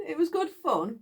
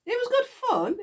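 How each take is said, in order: First: Said in the usual way. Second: High, bright burst of delight; fondly excited, pitched up; gleeful. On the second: Real, not acted. Gleeful recollection, then repeated plainly.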